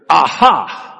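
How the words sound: It is said with venom and vigor.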